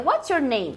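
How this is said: The voice falls at the end. The speaker calls it right. "Termina em falling intonation"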